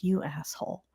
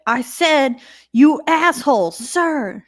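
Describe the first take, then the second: First: Quiet retold insult. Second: High, louder mock-military retort; defiant retort. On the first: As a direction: slip the insult out softly. First take of retold insult. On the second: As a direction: double down, pitched up and forceful. Repeats retold insult, doubling down.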